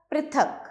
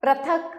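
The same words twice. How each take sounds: First: Said in the usual way. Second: पृथक said as "pra-thak"; rising पृथक with "ra" first; misspelt ra sound. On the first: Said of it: "री और र". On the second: Shown as a demonstration. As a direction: swap "pri" for "pra" in पृथक. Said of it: "री और र की अशुद्धियां".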